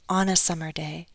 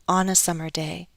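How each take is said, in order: First: The words are linked smoothly into one group. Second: The words are linked smoothly into one group.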